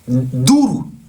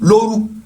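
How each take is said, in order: First: The word begins with a d sound. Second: The word begins with an l sound. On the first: This is the Malian Bambara pronunciation. "chez les Maliens, eux, ils disent Dourou" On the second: This is the Ivorian Djoula pronunciation. "Nous, on dit Lo, Lo, Lo, Lorou"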